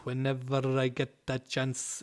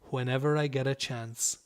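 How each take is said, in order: First: Each word is said separately and robotically. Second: The words run together in one smooth flow. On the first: The speaker calls it wrong. "It's not pronounced robotically like that" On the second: The speaker calls it right. "So that's how you pronounce that"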